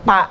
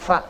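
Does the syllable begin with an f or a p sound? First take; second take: p; f. First: The syllable begins with a p sound. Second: The syllable begins with an f sound. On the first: The speaker calls it wrong. "jangan pa" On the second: The speaker calls it right. "kayak kita ngucapin huruf F"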